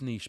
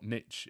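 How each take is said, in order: First: The word rhymes with quiche, sounding like neesh. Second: The word rhymes with pitch, sounding like nitch. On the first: This is the proper way of saying it. The speaker calls it right. "It's niche, by the way. You don't say kitsch for quiche" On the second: This is the American way of saying it. The speaker calls it wrong. "if you're in the U S"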